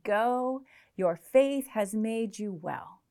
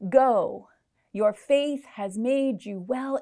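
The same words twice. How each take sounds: First: It is read as a final, climactic ending. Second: It is read as continuing, not an ending.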